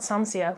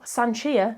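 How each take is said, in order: First: The middle consonant is an 's' sound. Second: The middle consonant is a 'sh' sound. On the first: The speaker calls it wrong. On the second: The speaker calls it right.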